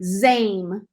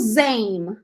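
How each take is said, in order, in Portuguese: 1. A vogal desliza como um ditongo. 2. A vogal desliza como um ditongo.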